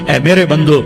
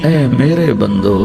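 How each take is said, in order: First: It is said in a plain, unaffectionate tone. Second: It is said in a warm, affectionate tone. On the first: The speaker calls it wrong. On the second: The speaker calls it right.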